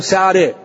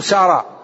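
First: The final vowel is tilted toward e. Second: The final vowel is a pure open a. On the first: "ما يقدر يقول إلا" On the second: "يصعب عليه ألا يميل، ما يقدر يقول"

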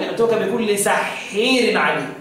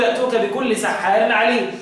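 First: The long vowel in sahhar leans toward 'e'. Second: The long vowel in sahhar is a plain open 'a'.

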